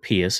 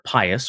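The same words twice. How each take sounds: First: The name is said in a classical Latin way. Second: The name is said in an everyday, non-classical way.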